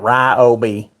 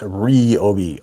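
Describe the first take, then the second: First: The first syllable sounds like 'rye'. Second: The first syllable sounds like 'ree'. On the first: The speaker calls it wrong. "It's not Ryobi. ... not our R I sound" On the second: The speaker calls it right.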